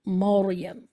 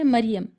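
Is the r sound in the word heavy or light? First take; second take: heavy; light. First: The r is heavy, with a rounded, raised tongue. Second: The r is light, sounding as if followed by i. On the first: The speaker calls it right. "मौरियम मोटा पढ़ना है" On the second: The speaker calls it wrong. "अगर हम इसको बारीक पढ़ें"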